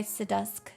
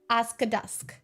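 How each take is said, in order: First: The name begins with an 'acid' sound. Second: The name begins with an 'ask' sound. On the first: "That's really fun to say" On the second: "I like to pronounce it Ask-dusk"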